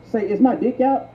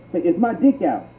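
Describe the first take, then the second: No difference in how they are said.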